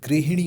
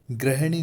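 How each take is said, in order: First: गृहिणी with a clear i after ह; correct pronunciation. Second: गृहिणी said as grahani, hi reduced; mispronunciation demo. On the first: Teacher models the right word for students, carefully pronounced गृहिणी with hi. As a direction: say गृहिणी stressing the hi syllable. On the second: Teacher shows students the mistake, गृहिणी mispronounced as grahani. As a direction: flatten the first vowels of गृहिणी to a. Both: Shown as a demonstration. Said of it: "गृहिणी नहीं होता".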